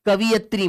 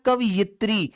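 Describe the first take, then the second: First: कवयित्री said as ka-va-yit-ri, with an extra vowel after व; wrong pronunciation. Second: कवयित्री said as kav-yit-ri, with no vowel after व; correct pronunciation. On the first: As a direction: show the mistake: कवयित्री with va spoken in full. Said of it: "मत कर देना". (कवयित्री का गलत उच्चारण, व पर अतिरिक्त स्वर) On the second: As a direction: model कवयित्री as kavyitri with व joined to यि. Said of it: "कवयित्री शब्द होता है". (कवयित्री का सही उच्चारण, व के बाद कोई स्वर नहीं) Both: Shown as a demonstration.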